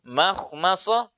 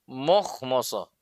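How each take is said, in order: First: The 'ma' syllables are light with a bright vowel. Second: The 'ma' syllables are heavy with a rounded vowel. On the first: The speaker calls it right. "harusnya makhmasoh" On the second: The speaker calls it wrong. "terkadang ada yang baca dengan mokhmosoh"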